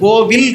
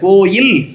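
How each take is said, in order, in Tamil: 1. நடுவில் இருக்கும் மெய்யெழுத்து v ஒலி. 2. நடுவில் இருக்கும் மெய்யெழுத்து y ஒலி. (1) "கோவில் கிடையாது"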